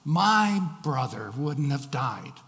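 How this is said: The word my carries the emphasis. The speaker is worried about what happens next. "the emphasis was on the word my"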